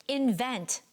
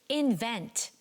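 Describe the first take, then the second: No difference in how they are said.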